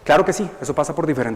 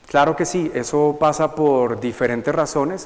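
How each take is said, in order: First: It is spoken quickly and confidently. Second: It is spoken slowly and hesitantly. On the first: The speaker sounds persuasive. "¿qué pasa si yo respondo de esta forma?" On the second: The speaker sounds doubtful and unpersuasive. "en este ritmo... Ambiguo, ¿cierto? Dubitativo, dudoso"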